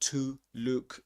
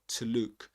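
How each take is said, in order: First: The word 'to' has a full vowel. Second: The word 'to' has a reduced schwa vowel. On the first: The speaker calls it wrong. "It's not to look" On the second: The speaker calls it right. "This is pronounced with a schwa"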